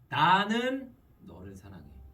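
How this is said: The stress is on 나는.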